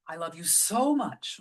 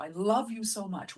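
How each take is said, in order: First: So much with the weight on so; I love you SO much; stress on so. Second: Love punched, the rest lighter; I LOVE you so much; stress on love. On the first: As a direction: lean on the word so. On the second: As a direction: hit the word love. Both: Shown as a demonstration. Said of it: "Where you put the stress".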